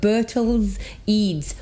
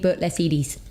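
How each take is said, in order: First: The last name ends in one syllable. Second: The last name ends in two syllables. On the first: This is how the owner says her name. The speaker calls it right. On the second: This is how a stranger selling something says it. The speaker calls it wrong.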